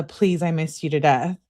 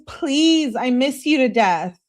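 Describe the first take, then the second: First: Said in the usual way. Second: High, loud acted plea; pleading. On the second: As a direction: beg like a lovesick girlfriend. Acts out lovesick plea, later repeated plainly.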